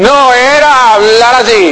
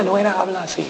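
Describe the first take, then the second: First: High, louder and slow; bold loud demo. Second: Much softer, almost murmured; hushed demo. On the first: Pastor showing how Marilyn really talked, high and slow. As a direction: belt it out like a brash talker. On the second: Pastor demonstrating how she did not talk, hushed. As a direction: say it like a timid little talker. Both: Shown as a demonstration.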